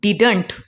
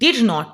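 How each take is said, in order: First: It is said as one contracted word. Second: It is said as two full words.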